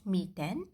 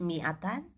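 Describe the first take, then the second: First: It is said in the colloquial dialect form. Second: It is said in the Standard Arabic form.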